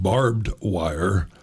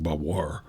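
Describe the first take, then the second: First: Both words are said separately and clearly. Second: The two words are squeezed into one short word. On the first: "that's probably the way it's said" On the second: "people who pronounce things like bavoir"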